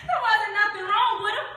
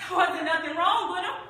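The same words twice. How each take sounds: First: High, loud protest; heated denial. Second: Insistent denial; louder, insistent rising protest; defensive. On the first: Repeating Bo's excuse more forcefully, heated. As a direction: insist at the top of the range. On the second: Retelling Bo's excuse for himself, insistent. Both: Acted.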